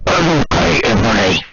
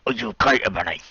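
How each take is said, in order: First: Louder, booming deep voice; bass-boosted Draco. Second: Gentle. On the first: Draco checking on Ebony, booming and loud. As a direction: boom it like a bass-boosted speaker. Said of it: "Bass boosting Draco". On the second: Draco checking on Ebony, gentle. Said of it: "Draco asked me gently". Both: Pretend.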